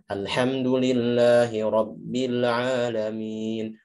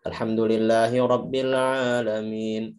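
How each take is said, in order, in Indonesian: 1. Dibaca dengan tempo sedang. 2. Dibaca dengan cepat. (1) "Tidak cepat, tidak lambat" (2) "Kalau kalau hadar itu kayak sholat tarawih ya biasanya"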